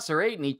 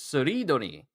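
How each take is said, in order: First: The name begins with a 'say' sound. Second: The name begins with a 'soo' sound. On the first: The speaker calls it wrong. "it's not Sereidni" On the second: The speaker calls it right. "it's Suridoni"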